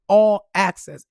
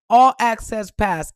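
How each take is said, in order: First: Slow whisper "All access.". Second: Slow and loud, leaning on "All access pass."; stressed slowly. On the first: Relishing the pass for viewers, whispered. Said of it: "Listen to that". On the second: Bragging to viewers about the pass, loud and slow. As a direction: savour each word of "All access pass.". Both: Real, not acted.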